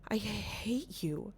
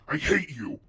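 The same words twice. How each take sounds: First: It sounds puzzled and confused. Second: It sounds angry and harsh.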